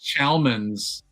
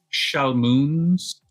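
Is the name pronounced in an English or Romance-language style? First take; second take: English; Romance. First: The name is given an English-style pronunciation. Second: The name is given a Romance-language-style pronunciation.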